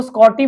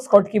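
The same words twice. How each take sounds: First: "स्कॉटी" with no k sound, ending in -ti; "स्कॉटी" said as two parts, skot-ti; variant pronunciation. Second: "स्कॉटकी" with a k after the t, skot-ki; "स्कॉटकी" ending in -ki rather than -ti; variant pronunciation. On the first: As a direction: say "स्कॉटी" as Scotty, dropping the k. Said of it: "जिसको स्कॉटी बोलते हैं कुछ लोग". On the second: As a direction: say "स्कॉटकी" as Schottky, keeping the k. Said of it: "कुछ लोग स्कॉटकी बोलते हैं". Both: Shown as a demonstration.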